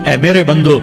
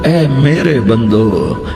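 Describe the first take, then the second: First: It is said in a plain, flat tone. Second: It is said in a warm, tender, loving tone. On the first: The speaker calls it wrong. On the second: The speaker calls it right.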